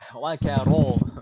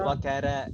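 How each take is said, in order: First: The r sound is heavy and thick. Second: The r sound is light and thin. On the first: The speaker calls it right. "Roknya tebal" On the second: The speaker calls it wrong.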